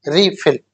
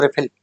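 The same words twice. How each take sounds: First: रिफिल said as "ri-fil" with a clear i sound; right pronunciation. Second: रिफिल said as "re-fil" with a short e sound; wrong pronunciation. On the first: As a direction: say रिफिल correctly, as "रि-फिल". (सही उच्चारण "रि-फिल") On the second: (ग़लत उच्चारण "रेफिल") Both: Shown as a demonstration. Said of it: "रिफिल नहीं".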